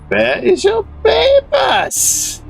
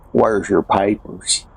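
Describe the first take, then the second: First: It is said in a German accent. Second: It is said in a Southern American drawl. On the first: A foreign fascist is demanding papers. "they wouldn't have to use a German accent" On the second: A domestic right-winger is demanding papers. "you would use like a southern drawl to say"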